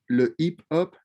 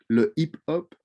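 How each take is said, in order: Both takes have the same delivery.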